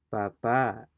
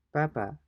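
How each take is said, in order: First: Papa as pa-PAA, louder long final A; papa with a loud, weighted ending; stress at the end. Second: Papa high then falling, PA-pa; short papa, front-stressed; stress on first syllable. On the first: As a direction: hit the last syllable of papa hard. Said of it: "stress at the end". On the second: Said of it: "we compare the two words". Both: Shown as a demonstration.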